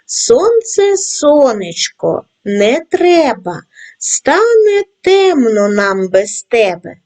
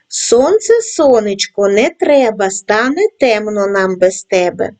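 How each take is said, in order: First: The rhyme is read at a slow pace. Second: The rhyme is read at a medium pace. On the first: "Читаймо разом зі мною тричі, кожного разу пришвидшуючи темп" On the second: "кожного разу пришвидшуючи темп"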